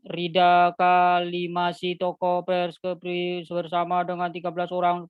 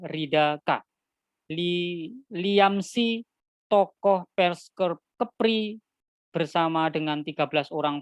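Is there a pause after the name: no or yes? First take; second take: no; yes. First: It runs on without pauses at the punctuation. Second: It pauses at the commas and full stops. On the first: The listener cannot tell who did what. The speaker calls it wrong. "Jangan membaca berita ... ini tidak jelas" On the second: The listener understands the news correctly. The speaker calls it right. "cara baca yang benar, harus tepat. Ada titik, ada koma"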